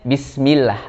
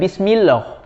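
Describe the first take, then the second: First: The l sound is thin and light. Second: The l sound is thick and heavy. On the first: The speaker calls it right. "Makanya bacanya Bismillah" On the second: The speaker calls it wrong. "bukan Bismillah"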